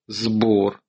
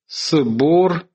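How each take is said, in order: First: The first consonant is a voiced z sound. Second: The first consonant is a voiceless s sound. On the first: This is the later form after the change. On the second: This is the older form before the change.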